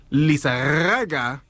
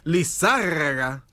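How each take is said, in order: First: "Lizarraga" drawn out slowly, stress off the ZAR; slow, uncertain "Lizarraga" with a long rolled r before the ending; misplaced stress. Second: "Lizárraga" said slowly, leaning on ZÁR; stress on ZÁR. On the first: Real, not acted. Co-host attempting a band name, "Lizarraga" with misplaced stress and long rolled r. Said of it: "No, I think [name]". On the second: Shown as a demonstration. Co-host repeating the correction, "[name]" slowly stressed on ZÁR. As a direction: draw out "Lizárraga" with stress on the second syllable. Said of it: "throwing that little accent in there".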